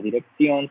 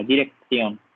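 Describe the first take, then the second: First: Dirección with the c as a plain S; Colombian pronunciation. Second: Dirección with the c lisped as th; Spain Spanish pronunciation. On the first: Teacher models dirección the Colombian way, S sound. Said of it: "desde el español de Colombia". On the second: Teacher contrasts dirección with a Spanish th sound. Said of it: "en el español de España suena diferente". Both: Shown as a demonstration.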